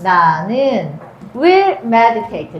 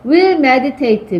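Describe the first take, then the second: First: 나는 will meditate, drawn out very slowly; slow, deliberate dictation of will meditate; slow reading. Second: Will meditate, very slow, falling; slow dictation of will meditate; slow reading. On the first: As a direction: stretch each word of will meditate. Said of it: "뭐라고 말할 거야?". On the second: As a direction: spell out will meditate slowly. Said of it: "나는 주어져". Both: Shown as a demonstration.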